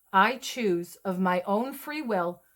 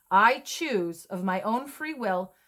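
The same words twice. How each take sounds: The two takes are said the same way.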